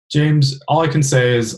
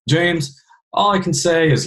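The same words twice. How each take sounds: First: Said in the usual way. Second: Put-on higher-pitched Louisiana Southern accent. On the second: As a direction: imitate a Louisiana father-in-law's Southern accent. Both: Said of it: "here I am with Southern accent again".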